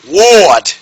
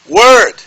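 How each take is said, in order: First: The vowel is a rounded aw sound. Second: The vowel is a central er sound. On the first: The speaker calls it wrong. "Not ward" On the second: The speaker calls it right. "The O R here is saying er"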